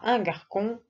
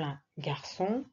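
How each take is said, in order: First: The middle consonant is a K sound. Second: The middle consonant is an S sound. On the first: The speaker calls it wrong. "si tu mets un C, ça fera un garcon ... Ça ne veut rien dire" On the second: The speaker calls it right. "Pour obtenir le son S devant A, O, U, on écrit un C C D"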